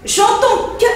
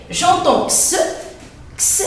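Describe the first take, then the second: First: "que" said as a lone hard k, higher phrase; k sound. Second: X said as the bare sound "ks". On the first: Teacher contrasting it with ks, "que" as hard k. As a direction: isolate "que" as a plain k sound. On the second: Teacher showing C before E, X as "ks". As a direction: isolate X as "ks" and repeat it. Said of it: "j'entends X". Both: Shown as a demonstration.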